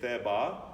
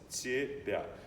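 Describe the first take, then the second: First: The t and b are hard, not palatalized. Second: The t and b are softened, palatalized. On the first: The speaker calls it wrong. "I have no idea what that is" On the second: The speaker calls it right. "The tsi is palatalized, followed by palatalized b"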